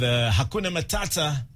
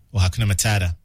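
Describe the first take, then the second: First: Said in the usual way. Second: Mock American accent. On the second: Shown as a demonstration. DJ joking about how Americans say the song title, American accent. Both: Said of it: "if you're reading it in American accent".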